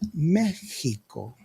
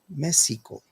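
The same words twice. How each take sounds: First: The middle consonant is a throaty H sound. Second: The middle consonant is an S sound. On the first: "with a J" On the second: "the correct pronunciation would be an S"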